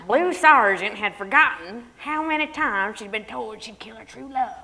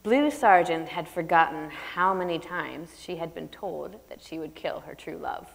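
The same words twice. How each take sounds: First: A put-on Southern accent as a joke; fake Southern accent. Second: Said in the usual way. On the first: Shown as a demonstration. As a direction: parody a car-mechanic Southern accent. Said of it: "I'm not gonna read it like that". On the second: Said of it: "I'm gonna read the prologue".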